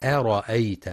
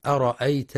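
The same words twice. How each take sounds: First: أرأيت with the hamza kept thin and light, the correct way. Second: أرأيت with the hamza thickened and heavy, the wrong way. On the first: Teacher giving the correct reading, أرأيت with thin hamza. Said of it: "والصواب ترقيقها". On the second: Teacher showing the students' mistake, أرأيت with heavy hamza. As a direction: darken the hamza in أرأيت with a full back mouth. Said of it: "بتفخيم الهمزة". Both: Shown as a demonstration.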